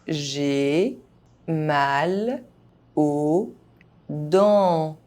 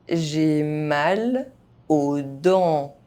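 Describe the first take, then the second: First: The phrase is spoken very slowly. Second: The phrase is spoken at normal speed. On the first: Each syllable can be heard clearly. "very slowly" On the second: This is the pace learners should use. "at a normal pace"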